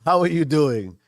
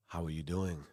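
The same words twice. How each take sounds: First: Higher, louder cheerful how are you; bright greeting. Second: Quiet throwaway how are you; low, soft greeting. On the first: A host greeting viewers, bright and lively. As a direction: greet them like you mean it. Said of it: "redoes the greeting brightly". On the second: A host greeting viewers, low and soft. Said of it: "laughs at his own flat greeting". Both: Shown as a demonstration.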